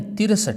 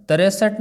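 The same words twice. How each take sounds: First: तिरसठ as "tir-sath", two syllables, higher; short "tir" starting तिरसठ; correct pronunciation. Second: तिरसठ said as "ta-re-sath"; wrong pronunciation. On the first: Teacher corrects the number word, emphatic. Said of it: "तिरसठ नहीं". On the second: Teacher shows the faulty number word, mispronounced. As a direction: open तिरसठ with "tare", higher. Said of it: "नहीं". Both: Shown as a demonstration.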